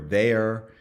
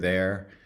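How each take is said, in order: First: A schwa is inserted before the r. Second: No schwa is inserted before the r. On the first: "there's a schwa in between" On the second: "as opposed to"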